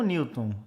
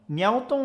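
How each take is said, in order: First: "Newton" said as NEW-ton, without the open E; unaccented pronunciation. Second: "Newton" said as nee-EL-ton, with an open E; accented E pronunciation. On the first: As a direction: say "Newton" as NIU-ton, gliding straight from I to U. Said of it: "vou escolher falar Newton". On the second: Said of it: "bota um acento assim no Newton". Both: Shown as a demonstration.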